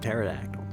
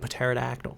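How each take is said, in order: First: The P at the start is silent. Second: The P at the start is pronounced. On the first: This is the English way. The speaker calls it wrong. "How come English is just pterodactyl?" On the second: This is the Greek way. The speaker calls it right. "the P is still there. It is actually a pterodactyl"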